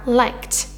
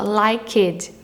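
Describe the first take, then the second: First: The ending is just a t sound. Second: The ending is an extra syllable with a vowel. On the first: The speaker calls it right. "sem falar o e desse ed" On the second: The speaker calls it wrong. "O pessoal fala o e"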